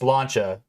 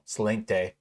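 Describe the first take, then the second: First: The word ends with a 'cha' sound. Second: The word ends with a 'kte' sound. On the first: The speaker calls it right. "it's Slancha" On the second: The speaker calls it wrong. "not like, you know, Slinkte"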